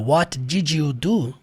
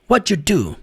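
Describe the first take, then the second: First: The word did is said fully and separately. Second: Did shrinks to a d sound joined to what. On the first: This is the form taught in school. "Que é o que a gente aprende na escola" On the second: This is how people ask naturally in real life. "o what vai terminar com som de D"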